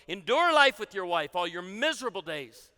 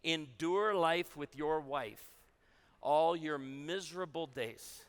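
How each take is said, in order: First: It is said in a put-on preaching voice. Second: It is said in an ordinary speaking voice.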